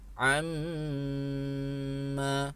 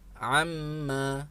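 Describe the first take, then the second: First: The nasal mm sound is held long. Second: The nasal mm sound is short and quick. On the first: The speaker calls it right. "tahan amma" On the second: The speaker calls it wrong. "tidak sekadar dibaca amma"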